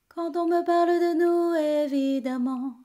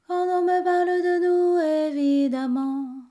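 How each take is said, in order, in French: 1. Les consonnes sont articulées juste un peu. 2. Les consonnes ne sont presque pas articulées du tout. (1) "de les prononcer quand même un tout petit peu" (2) "on va essayer de pas les prononcer"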